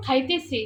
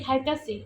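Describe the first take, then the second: First: Said in the usual way. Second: খাইতাছি with -তাছি in place of standard -তেছি; Brahmanbaria dialect form. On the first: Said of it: "আসল কথাটা হলো". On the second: Shown as a demonstration. Cook giving her home dialect's খাইতাছি, the -তাছি ending in place of -তেছি. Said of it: "আমরা বলি".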